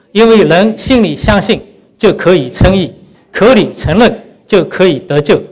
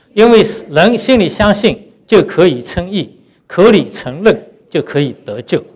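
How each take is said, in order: No difference in how they are said.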